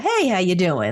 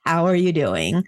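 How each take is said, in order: First: It sounds like a quick, casual greeting. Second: It sounds earnest and sincerely concerned.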